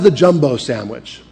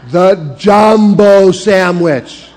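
First: It is said at a normal pace and volume. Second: It is said more slowly and more loudly.

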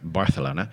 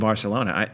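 First: The 'c' is said as a 'th' sound. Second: The 'c' is said as a plain 's'.

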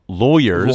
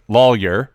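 First: It is said the Los Angeles way. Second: It is said the Southern way, like 'law'. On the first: "And out here in Los Angeles, they call them lawyers" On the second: "In the South, they say lawyer because they practice law"

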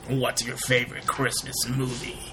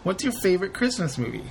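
First: It is said in a put-on character voice. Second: It is said in the speaker's ordinary voice.

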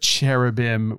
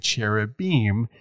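First: The ending is a short 'im' sound. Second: The ending is a long 'eem' sound. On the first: The speaker calls it wrong. "And instead of cherubim" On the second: The speaker calls it right. "would sound like an E-M"

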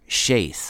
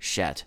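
First: The vowel is a long a sound. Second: The vowel is a short e sound. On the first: The speaker calls it right. "Shaith with a long A" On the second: The speaker calls it wrong. "I intentionally mispronounced the name here"

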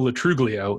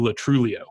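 First: The G is pronounced as a hard sound. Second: The G is silent or soft. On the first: The speaker calls it wrong. "It is not ... Joe Latruglio" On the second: The speaker calls it right. "It's like a soft / silent G"

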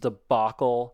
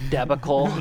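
First: The word is pronounced in the standard way. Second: The word is pronounced in a distorted way. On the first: The speaker calls it right. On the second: The speaker calls it wrong.

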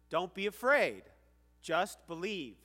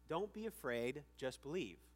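First: It is said in a firm, commanding voice. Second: It is said gently, without command.

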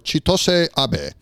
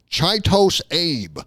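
First: The name is said without an American pronunciation. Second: The name is said with an American pronunciation. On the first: The speaker calls it right. "That's my best guess" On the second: The speaker calls it wrong. "Mad Americans are going to pronounce that"

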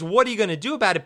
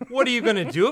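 First: It is said as a flat statement. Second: It is said as a rising question.

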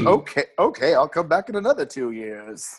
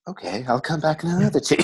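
First: It is said in a plain voice. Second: It is said in a breathy voice.

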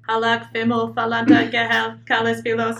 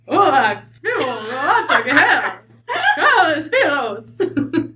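First: It is said flat and robotic, without inflection. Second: It is said with lively, horse-like inflection.

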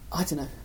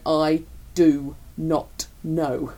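First: It is said casually and relaxed. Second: It is said very clearly, sounding annoyed.

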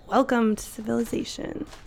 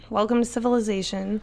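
First: It sounds intrigued and curious. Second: It sounds plain and matter-of-fact.

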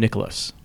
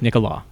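First: The name ends with an audible s sound. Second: The name ends without any s sound. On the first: The speaker calls it wrong. "I call him Nicholas" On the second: The speaker calls it right. "There's an S and you don't pronounce it"

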